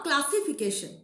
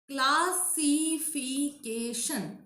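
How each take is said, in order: First: Said in the usual way. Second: Classification very slowly, clas-si-fi-ca-tion; syllable by syllable. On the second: Shown as a demonstration. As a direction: stretch "Classification" into five separate beats. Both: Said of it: "Five syllable".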